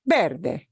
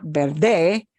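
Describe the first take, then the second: First: "verde" punched on the first syllable, VER-de; correct penultimate stress. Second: "verde" stressed on the final "de", drawn out; wrong stress on last syllable. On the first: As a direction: hit "ver" hard and let "de" fall. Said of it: "it's verde". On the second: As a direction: misplace the punch onto the end of "verde", ber-DEH. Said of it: "It's not verde". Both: Shown as a demonstration.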